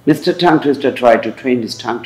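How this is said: Every T is released with a strong puff of air. "যদি আপনি নেটিভদের মতো চান তাহলে ঠিক আমার মতো চলবেন।"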